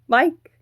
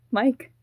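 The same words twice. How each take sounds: First: Loud, high rising shout of MIKE; desperate call. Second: Raised, questioning call of MIKE; calling after him. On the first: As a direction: cry MIKE out to stop him leaving. Second, more desperate call. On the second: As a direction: call MIKE anxiously as he leaves. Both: Acted.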